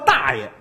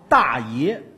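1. 第二个音节读轻声，不重读。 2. 第二个音节带本调，读实声。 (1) "这逻辑重音不对，那不叫大爷" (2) "那叫大爷。你比我大，你是大爷"

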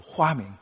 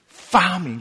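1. 这个词以 h 音开头。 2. 这个词以 f 音开头。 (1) "发明都是花名" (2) "那个F 不会发的"

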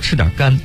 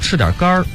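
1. 最后一个词没有儿化。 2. 最后一个词以儿化音结尾。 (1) "不能说吃点肝" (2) "我们必须得说吃点肝儿"

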